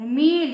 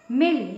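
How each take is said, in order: First: मील with the ee held long. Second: मिल with a quick short i. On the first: Teacher contrasting two word meanings, long vowel. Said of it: "बड़ी की मात्रा लगा दिए". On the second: Teacher contrasting two word meanings, short vowel. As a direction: keep the vowel in मिल brief. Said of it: "गलत मात्रा यदि कहीं लग गई". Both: Shown as a demonstration.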